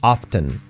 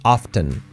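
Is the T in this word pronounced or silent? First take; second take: pronounced; pronounced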